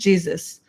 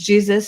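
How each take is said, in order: First: The name is said with an English pronunciation. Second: The name is said with a Spanish pronunciation. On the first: "with English with the same letters with a different pronunciation" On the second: "in Spanish, Italian, uh, like all all of the like Latin, it went to Jesus"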